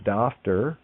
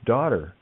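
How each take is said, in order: First: The middle consonant is an f sound. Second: There is no middle consonant sound at all. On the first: The speaker calls it wrong. "or Dafter" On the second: The speaker calls it right. "it's daughter"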